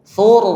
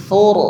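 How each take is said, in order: No difference in how they are said.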